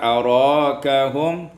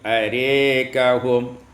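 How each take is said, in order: First: The vowel after r is a plain a. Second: The vowel after r is tilted toward e.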